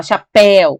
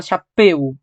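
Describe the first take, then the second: First: "chapéu" with a wide open é in the final syllable; open diphthong. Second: The wrong "chapéu", its vowel kept narrow and closed; closed-vowel mispronunciation. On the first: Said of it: "com mais abertura". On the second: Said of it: "Ou por acaso você fala chapéu". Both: Shown as a demonstration.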